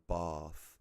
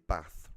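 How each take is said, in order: First: The vowel is long, like 'barth'. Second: The vowel is short and flat, with no R. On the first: The speaker calls it wrong. "rather than bath ... There's no R" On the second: The speaker calls it right. "I will say bath"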